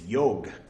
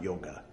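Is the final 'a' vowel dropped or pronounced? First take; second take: dropped; pronounced. First: The final 'a' vowel is dropped. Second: The final 'a' vowel is pronounced. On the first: The speaker calls it right. "It's yog" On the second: The speaker calls it wrong. "not yoga"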